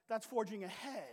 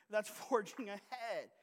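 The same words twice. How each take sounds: First: Said in the usual way. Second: That's forging ahead said slower, each word weighted; slow emphasis. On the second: Shown as a demonstration. Pastor repeating the church motto to the congregation, slowed for emphasis. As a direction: drive home That's forging ahead slowly.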